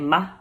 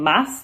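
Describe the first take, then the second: First: The final s is aspirated, nearly dropped. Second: The final s is pronounced clearly. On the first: This is how Chileans say it. "They also aspirate their S's. So instead of saying mas, they're going to say ma" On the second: This is the usual pronunciation elsewhere. "instead of saying mas"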